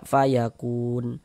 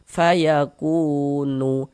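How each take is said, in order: First: The word ends on a stopped n sound. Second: The word ends with an extra nu syllable. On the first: The speaker calls it right. "kita baca fayakun" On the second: The speaker calls it wrong. "Jangan dibaca fayakunu, nu baru berhenti"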